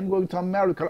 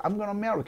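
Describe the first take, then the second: First: It is said slowly, each word separate. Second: It is said fast, words linked together.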